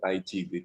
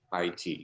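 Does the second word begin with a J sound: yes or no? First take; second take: yes; no. First: The second word begins with a J sound. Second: The second word begins without a J sound. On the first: The speaker calls it wrong. "kebanyakan orang membaca Tai Chi, J I" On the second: The speaker calls it right. "padahal sebenarnya bacanya adalah Tai Chi"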